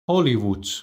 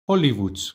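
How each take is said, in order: The two takes are said the same way.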